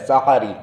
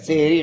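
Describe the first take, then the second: First: The first vowel sounds like short 'a'. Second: The first vowel sounds like 'e'. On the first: The speaker calls it right. "सहर सीन की ज़बर के साथ" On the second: The speaker calls it wrong. "हम उसे गलत गलती से सेहरी कहते हैं, सेहरी गलत है"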